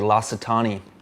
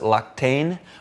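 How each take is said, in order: First: The name is said with all its syllables. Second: The name is said in a clipped, shortened form. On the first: This is the actual name. The speaker calls it right. "but I think it's actually L'Occitanie" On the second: This is how many people say it. The speaker calls it wrong. "I think they want to pronounce it Lactane"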